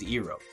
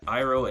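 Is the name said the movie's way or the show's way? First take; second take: movie's way; show's way. First: The name is said the way the movie says it. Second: The name is said the way the show says it. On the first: The speaker calls it wrong. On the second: The speaker calls it right.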